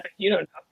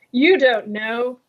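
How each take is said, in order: First: Said in the usual way. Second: "You don't know." drawn out slowly, stressed on You; slow teasing emphasis. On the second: Shown as a demonstration.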